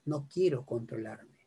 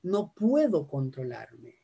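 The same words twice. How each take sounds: First: Low, soft admission; frank admission. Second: Slow, drawn-out excuse, pitched lower; helpless excuse. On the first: Speaker voicing the real reason, low and quiet. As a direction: drop right down to confess it. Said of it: "Lo real es". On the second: Patient excusing lost temper, slow and drawn-out. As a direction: stretch out the claim of helplessness. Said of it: "lo real no es". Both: Shown as a demonstration.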